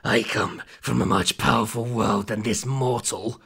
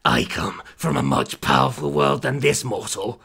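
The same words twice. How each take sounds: First: Slow demon voice reading "I come from a much powerful world than this mortal." without a pause before "mortal"; menacing demon line read straight through. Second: Low demon voice pausing at "this," before "mortal."; "I come from a much powerful world than this," then a beat, then "mortal."; pause before mortal. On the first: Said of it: "it's meant to be". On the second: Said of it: "I don't have the comma". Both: A narrator's reading.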